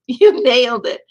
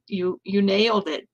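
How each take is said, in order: First: Laughing it out, much louder; delighted laughing praise for the poet. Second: Said in the usual way. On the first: Real, not acted. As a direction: burst out laughing as you repeat it.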